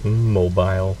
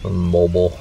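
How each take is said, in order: First: Drawn-in "mm", then "mobile" ending like "bile"; teasing long-i mobile. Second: "mobile" rhyming with noble; short-ending mobile. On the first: Husband teasing his wife over her word, "mobile" as MOH-bile. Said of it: "teasing my wife the other day". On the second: Husband contrasting with his wife's word, "mobile" as MOH-bul. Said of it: "'cause she said mobile". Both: Retold or imitated.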